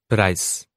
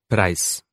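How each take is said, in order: Both takes have the same delivery.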